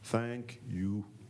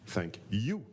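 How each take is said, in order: First: It is said flat, with no variation. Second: It is said with lively, varied emphasis. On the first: The speaker calls it wrong. "je vous le fais à plat sans dynamique" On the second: The speaker calls it right. "Ça, c'est la dynamique"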